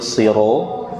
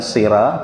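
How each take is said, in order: First: The r is heavy, with a rounded o vowel. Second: The r is light, with an open a vowel. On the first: The speaker calls it right. "tapi siro" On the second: The speaker calls it wrong. "bukan sira"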